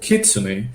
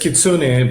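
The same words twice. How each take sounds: First: The stress is on the first syllable. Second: The stress is on the second syllable. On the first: This is how it is said in Japan. The speaker calls it right. "they instead put the emphasis on the first one" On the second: This is how most people say the name. The speaker calls it wrong. "everybody uh, says kitsune"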